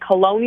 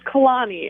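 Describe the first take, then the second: First: The middle vowel sounds like 'oh'. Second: The middle vowel sounds like 'ah'. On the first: The speaker calls it wrong. "They say Kaloni or Colony" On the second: The speaker calls it right. "It's Kalani"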